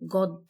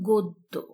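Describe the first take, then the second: First: The first vowel sounds like an open 'a'. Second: The first vowel sounds like a rounded 'o'. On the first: The speaker calls it wrong. "এখানে লেখা রয়েছে গদ্য" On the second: The speaker calls it right. "কিন্তু সঠিক উচ্চারণ হচ্ছে গদ্য"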